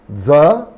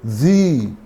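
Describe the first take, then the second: First: The vowel is short and reduced. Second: The vowel is long, like 'thee'. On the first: "a short the" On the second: "a long the"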